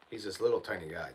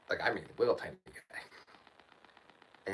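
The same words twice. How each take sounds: First: Said in the usual way. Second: "little tiny guy" drawn out very slowly, weight on "little"; stretched emphasis. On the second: Real, not acted. Stressing to the caller how small the neighbour is, drawn out.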